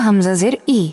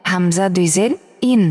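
First: Said in the usual way. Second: "ইন" closed on an n; final n sound. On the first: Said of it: "নিচে জের থাকলে উচ্চারণটা হতো". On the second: Shown as a demonstration. Teacher models double zer for learners, "ইন" ending in n. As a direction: say "ইন" as i plus a clear final n. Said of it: "ইন এভাবে উচ্চারণ হবে".

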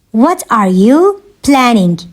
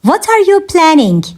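First: Slower, with a pause after "you"; measured, word-grouped delivery; slow teaching repeat. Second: Said in the usual way. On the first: Shown as a demonstration. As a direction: separate it clearly for learners. Teacher repeats question slowly for learners.

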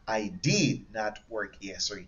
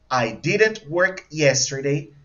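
First: Softer, slow sentence with "did not" as two full words; long form. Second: Slow sentence with "didn't" run together as one word; contracted form. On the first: Teacher models the long option for class, "did not" said in full. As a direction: separate "did" and "not", unhurried. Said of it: "the long form". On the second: Teacher models the short option for class, "didn't" contracted and slow. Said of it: "The contracted form and the long form". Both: Shown as a demonstration.

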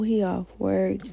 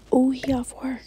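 First: Said in the usual way. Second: Breathy whisper, almost no voice. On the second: Real, not acted. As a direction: whisper it like you are sneaking. Streamer reacting to game scene.

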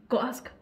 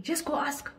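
First: Louder urge. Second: Said in the usual way. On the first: Real, not acted. Urging louder repeat.

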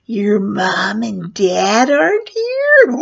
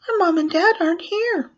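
First: Loud, slow, swooping menacing clown voice; funny creepy clown. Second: Put-on high-pitched little kid voice; children's answer. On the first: Retold or imitated. Clown leaning in the doorway to children, funny creepy voice. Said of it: "I started talking really funny". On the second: Children tell the clown at the door, high child voice.

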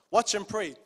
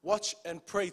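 First: Watch and pray pushed out louder; louder repeat. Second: Said in the usual way. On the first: Shown as a demonstration. Preacher repeating a command to his church, louder. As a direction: press Watch harder the second time. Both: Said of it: "Emphasis on the word".

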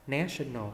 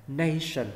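First: "National" as NASH-un-al; short "ná" vowel. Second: "nation" as NAY-shun; long "nay" vowel. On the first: Teacher contrasts it with nation, "National" with short "ná". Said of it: "ná đúng không?". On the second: Teacher contrasts it with national, "nation" with long "nay". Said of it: "mình đọc là nay". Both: Shown as a demonstration.

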